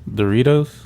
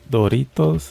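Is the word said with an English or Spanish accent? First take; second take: English; Spanish. First: It is said with an English accent. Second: It is said with a Spanish accent.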